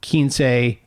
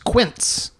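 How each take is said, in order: First: It is pronounced as a Spanish word. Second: It is pronounced as an English word. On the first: It is the title of the book. The speaker calls it right. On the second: It is read as the English word. The speaker calls it wrong.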